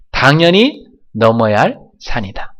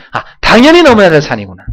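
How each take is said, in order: First: Said in the usual way. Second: 당연히 hit high and loud, a bright sudden realization; 당연히 said loud and high as a sudden insight; realizing exclamation. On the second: Shown as a demonstration. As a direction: exclaim it like you just understood, stressing 당연히. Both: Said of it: "갈등이 찾아오면".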